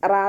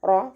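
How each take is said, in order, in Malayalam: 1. ശബ്ദം നേർത്തതും ലഘുവുമാണ്, raa പോലെ. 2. ശബ്ദം കനത്തതും നിറഞ്ഞതുമാണ്, ro പോലെ. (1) "റാ എന്നായി പോവരുത്" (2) "ഉയർത്തിയിട്ട് ഉച്ചരിക്കുക"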